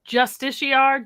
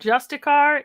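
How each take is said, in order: First: The word does not sound like 'just a car'. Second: The word sounds like 'just a car'.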